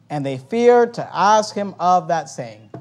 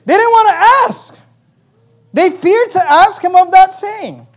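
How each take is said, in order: First: Said in the usual way. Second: Emphatic preaching. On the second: Real, not acted. Preacher driving the verse home to congregation, loudly emphatic. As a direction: hammer the point home at high pitch.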